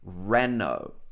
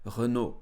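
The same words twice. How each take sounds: First: It is said with an English pronunciation. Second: It is said with a French pronunciation. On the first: "in English" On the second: "the French pronunciation will be something like Renault"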